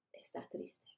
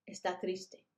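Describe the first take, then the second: First: Unvoiced whisper of está triste. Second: Said in the usual way. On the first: Shown as a demonstration. Teacher whispering está triste to the class. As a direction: whisper the word triste sadly.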